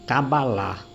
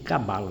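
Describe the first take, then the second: First: The final syllable is lengthened and drawn out. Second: The final syllable is short and not drawn out. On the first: This is how it is said in Israel. "lá eles chamam de cabalá, eles alongam o final" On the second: This is how it is said here. "Nós aqui chamamos de cabala"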